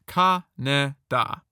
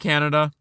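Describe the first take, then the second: First: The name is said as Kaneda. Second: The name is said like the country Canada.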